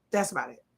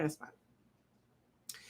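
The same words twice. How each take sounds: First: Said in the usual way. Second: Whispered aside. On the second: Pretend. Whispered repeat of her line.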